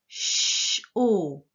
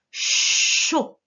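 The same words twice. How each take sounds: First: CHAUD split into CH and a long O; split syllable. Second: CHAUD with a long, loud CH, short O; sounded-out syllable. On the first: Teacher breaking down a syllable, sound by sound. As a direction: separate the hush from a held O in CHAUD. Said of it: "Tu as dû écrire le ch". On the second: Teacher giving the correct syllable, exaggerated sound. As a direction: lean on the hushing CH of CHAUD. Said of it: "c'était la syllabe". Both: Shown as a demonstration.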